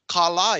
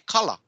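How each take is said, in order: First: Both vowels are held long. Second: Both vowels are said short. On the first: It means money. "Kala is money" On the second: It names a type of fish. "That's a type of fish"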